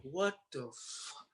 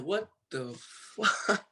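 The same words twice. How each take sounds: First: Soft, slow, dazed disbelief; quiet disbelief. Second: Higher, drawn-out slow disbelief; stunned disbelief. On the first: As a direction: breathe it out, dazed. On a plane to Florida. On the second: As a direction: stretch it out, stunned by the news. Waking to viral Instagram. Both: Retold or imitated.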